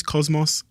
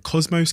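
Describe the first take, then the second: First: Cosmos with a reduced ending, "koz-muss"; alternative pronunciation. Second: Cosmos with a long O, "koz-mohs"; trying a pronunciation. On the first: Host checking the documentary title's pronunciation, Cosmos as "koz-muss". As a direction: say Cosmos with a short, unstressed "muss". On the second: Host unsure he is saying the documentary title right, Cosmos as "koz-mohs". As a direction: say Cosmos ending in a full "mohs". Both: Shown as a demonstration. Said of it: "I don't know if I'm saying that right".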